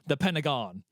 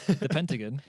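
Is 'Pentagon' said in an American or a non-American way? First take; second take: American; non-American. First: Pentagon is said with an American pronunciation. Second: Pentagon is said with a non-American pronunciation. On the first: It refers to the building. "Then you know I'm talking about that building" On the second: It refers to a five-sided shape. "if I just say the Pentagon, you're like, why are you referring to a shape"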